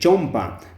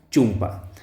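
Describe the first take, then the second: First: The first vowel is an o sound. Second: The first vowel is a u sound. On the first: This is the original Spanish form. "esta palabra pues viene de castellano, ¿no? De chompa" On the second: This is the Quechua form. "tenemos que reemplazar esa O por la vocal U, por eso decimos chumpa"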